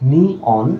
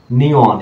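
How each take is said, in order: First: নিয়ন split as "ni - on"; syllable division. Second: Said in the usual way. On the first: Shown as a demonstration. Teacher counting syllables for students, split pronunciation. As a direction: break নিয়ন into separate syllables, ni, then on. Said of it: "বা তিনটাও যদি হয়". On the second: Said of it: "উচ্চারণ করুন".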